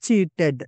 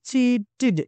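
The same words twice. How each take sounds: First: The final syllable sounds like ted. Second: The final syllable sounds like tid. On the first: The speaker calls it wrong. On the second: The speaker calls it right. "T D must be pronounced like a T I D"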